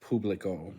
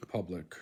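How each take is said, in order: First: "Publico" as POOB-li-co; firm "oo" in "Publico"; accented first vowel. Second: Said in the usual way. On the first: Shown as a demonstration. Learner showing the accented letter, "Publico" with a firm "oo". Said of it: "stress the letter firmly". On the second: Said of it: "the accent never alters".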